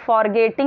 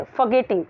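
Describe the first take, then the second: First: "forgetting" with a sounded R, "for-getting"; r pronounced. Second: "forgetting" as "fuh-getting", no R; silent r. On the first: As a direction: say "forgetting" with the r clearly pronounced in the first syllable. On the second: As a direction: say "forgetting" with a short, r-less first syllable. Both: Shown as a demonstration. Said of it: "अब इसको हम forgetting नहीं बोलेंगे".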